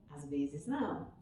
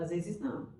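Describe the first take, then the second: First: Soft repeat. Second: Said in the usual way. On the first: Shown as a demonstration.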